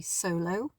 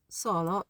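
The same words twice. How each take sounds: First: Solo with English gliding oh vowels, soh-loh; English pronunciation. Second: Solo with short open Italian o sounds, sɔlo; Italian pronunciation. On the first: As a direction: say solo the English way, rounded diphthongs. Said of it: "in English it would be solo". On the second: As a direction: say solo the Italian way, pure clipped vowels. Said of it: "well, in English it would be solo". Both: Shown as a demonstration.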